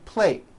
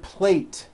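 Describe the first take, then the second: First: The final T sound is dropped and unheard. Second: The final T sound is clearly released. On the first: The speaker calls it wrong. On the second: The speaker calls it right.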